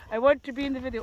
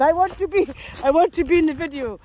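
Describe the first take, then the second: First: Said in the usual way. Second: A light, louder play-voice for the dog. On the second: Pretend. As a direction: speak for the eager dog, a bit louder. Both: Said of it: "He said".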